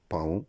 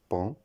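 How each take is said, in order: First: "paon" split into pa-ON; wrong pronunciation. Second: "pont" as one nasal syllable, like pan; correct pronunciation. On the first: Teacher showing the mistake in paon, mispronounced as pa-on. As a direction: say "paon" in two syllables, sounding A then nasal ON. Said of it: "La prononciation incorrecte". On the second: Teacher giving the right form of paon, correctly pronounced pan. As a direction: say "pont" as pɑ̃, the word paon without an O. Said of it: "La bonne prononciation". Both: Shown as a demonstration.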